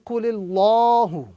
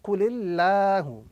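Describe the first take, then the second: First: The L in Allah sounds full and heavy. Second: The L in Allah sounds flat and thin. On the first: The speaker calls it wrong. "as opposed to" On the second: The speaker calls it right. "The correct pronunciation is with a flat sound"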